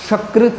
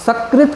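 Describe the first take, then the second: First: सकृत said with sh at the start, "shakrit"; mistaken sh sound. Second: सकृत starting on a dental s; correct s sound. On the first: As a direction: swap the s of सकृत for sh. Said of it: "सकृत ना बोल दें". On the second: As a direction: say सकृत as "sakrit", with s. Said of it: "की जगह आप सकृत ना बोल दें". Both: Shown as a demonstration.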